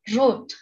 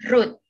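First: The R is a gargled sound in the throat. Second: The R is a clear tongue R. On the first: The speaker calls it right. "dalam bahasa Jerman diucapkannya dengan cara road" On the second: The speaker calls it wrong. "Kalau dalam bahasa Indonesia kita mengucapkannya seperti road"

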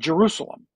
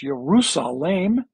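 First: The name begins with a J sound. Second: The name begins with a Y sound. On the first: This is the familiar translated form of the name. The speaker calls it wrong. "not Jerusalem" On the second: This keeps the original language's form of the name. The speaker calls it right. "That it's a yod or a y to begin with"

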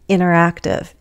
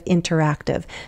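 First: The T after the N is dropped. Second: The T after the N is pronounced. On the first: "I can also drop that T. Americans often do that" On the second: "instead of"

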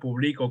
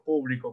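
First: The stress is on the middle syllable. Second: The stress is on the first syllable. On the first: "como grave" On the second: "como esdrújula"

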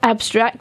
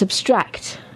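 First: The stress is on the first syllable. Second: The stress is on the second syllable. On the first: It is a noun: a summary of a text. "When it's a noun, you put the emphasis on the first part of the word, on the first syllable" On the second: It is an adjective: an idea rather than something material. "when it's an adjective, you put the emphasis or stress on the second syllable"

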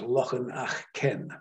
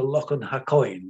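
First: The name is said with a Gaelic pronunciation. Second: The name is read in an anglicized way. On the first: "It might be pronounced Loch an Achken in Gaelic" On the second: "Not entirely sure that that's the correct pronunciation of it"

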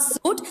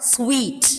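First: The word is said like 'soot', without a w. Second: The word is said like 'sweet', with a w. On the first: The speaker calls it wrong. "It is not suit" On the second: The speaker calls it right. "It is like pronounced as sweet"

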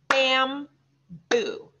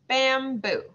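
First: It is said slowly, syllable by syllable. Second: It is said at fast, regular speed.

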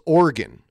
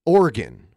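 First: The word is said with two syllables. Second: The word is said with two syllables.

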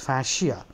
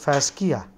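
First: The word is said the standard, accepted way. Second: The word is said the tempting, literal way. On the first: The speaker calls it right. "but it is fascia" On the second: The speaker calls it wrong. "you will be tempted to pronounce it fascia. No"

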